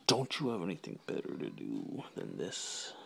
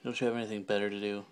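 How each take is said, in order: First: Lower, softer put-on voice; mock interrogation. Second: Said in the usual way. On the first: Vlogger questioning himself about the video, low mock-probing voice. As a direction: ask it low, sinking away.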